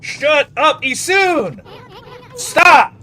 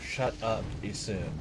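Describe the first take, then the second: First: High, very loud angry shouting; furious yell building to a blast; pissed off. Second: Low, very quiet grumble; real, spent, softly annoyed; deflated annoyance. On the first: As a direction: scream at it to stop, real rage. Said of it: "it's pissing me off". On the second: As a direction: mutter it under your breath, worn out. Muttered after the outburst. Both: Real, not acted.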